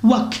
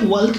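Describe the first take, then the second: First: "ওয়াক" with silent l, "wak"; correct pronunciation. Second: "ওয়াক" with the l sounded, "walk"; common mispronunciation. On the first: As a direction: go straight from vowel to k in "ওয়াক". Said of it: "এটা হচ্ছে উচ্চারণ ওয়াক". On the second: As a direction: voice an l before the k in "ওয়াক". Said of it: "এলটাকে আমরা use করি না". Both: Shown as a demonstration.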